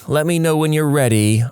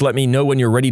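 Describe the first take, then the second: First: It is said in a snide, eye-rolling tone. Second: It is said in a plain, neutral tone. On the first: The speaker is annoyed and dismissive. "changes the tone of everything" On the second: A simple polite request. "instead of just"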